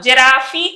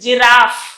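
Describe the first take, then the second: First: It ends with an extra ee vowel. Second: It ends with an F sound. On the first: The speaker calls it wrong. "మనం దీన్ని normal గా జిరాఫీ అంటాము, జిరాఫీ కాదు" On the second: The speaker calls it right. "ఈ silent"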